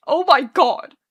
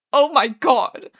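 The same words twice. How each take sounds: First: Loud, higher-pitched sobbed cry; sobbing. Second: Slow, loud anguished moan. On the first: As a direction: sob it out in despair. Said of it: "he sobs". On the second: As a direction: draw it out as a despairing moan. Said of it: "Arthur moans". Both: A narrator's reading.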